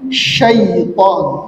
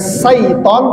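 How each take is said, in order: First: The word begins with an 'sh' sound. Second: The word begins with a plain 's' sound. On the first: The speaker calls it right. "tapi syaiton, ya. Pakai sya" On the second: The speaker calls it wrong. "bukan syaiton"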